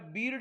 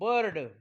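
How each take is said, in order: First: The vowel sounds like a long 'ee'. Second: The vowel sounds like 'er'. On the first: The speaker calls it wrong. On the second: The speaker calls it right.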